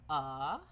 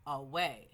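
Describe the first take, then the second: First: "Away" split into "A" and "way" with a long pause; "A... way", stretched apart for a child to count; syllable-by-syllable. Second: Said in the usual way. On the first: Shown as a demonstration. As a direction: break "Away" into two isolated syllables. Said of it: "there's a pause in between". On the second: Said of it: "The word is".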